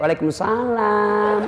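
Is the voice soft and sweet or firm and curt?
soft. It is said in a soft, sweet voice.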